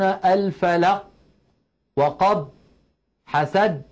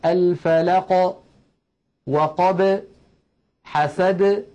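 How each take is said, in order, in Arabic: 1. تُنطق الحروف الساكنة في الآخر فجأة، ويبقى الموضع مغلقًا. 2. تُطلق الحروف الساكنة في الآخر مع ارتداد خفيف.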